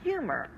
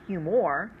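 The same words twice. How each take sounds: First: The stress is on the first syllable. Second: The stress is on the second syllable. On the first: The speaker calls it right. "We say humor" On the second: The speaker calls it wrong. "We don't say humor"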